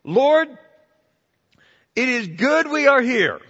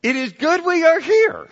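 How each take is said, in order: First: High, loud eager outburst; Peter's eager words. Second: Higher, louder, excited replay; excited Peter. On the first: Preacher voicing Peter blurting to Jesus, high and eager. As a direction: blurt it out like Peter just waking. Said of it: "And Peter said to Jesus". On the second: Preacher trying Peter's words to the congregation, excited. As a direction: say it like a thrilled man. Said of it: "I don't know if he said that excitedly". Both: Retold or imitated.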